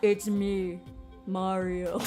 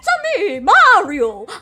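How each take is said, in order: First: It is said in a deep grown-man voice. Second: It is said in a high-pitched cartoon voice.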